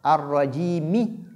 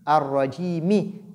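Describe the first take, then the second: Both takes have the same delivery.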